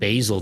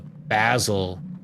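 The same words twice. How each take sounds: First: Basil is said the speaker's usual non-British way. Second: Basil is said the British and Australian way. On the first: "almost stopped saying basil now" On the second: "I've heard so many British and Australians say uh, basil"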